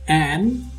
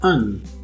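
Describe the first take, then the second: First: The vowel is a full, unreduced vowel. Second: The vowel is reduced to a schwa. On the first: "Its strong form is pronounced as an" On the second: "its weak form as un. Un, that is with schwa"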